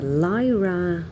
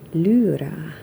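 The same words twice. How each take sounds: First: The first vowel is not an 'oo' sound. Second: The first vowel is an 'oo' sound.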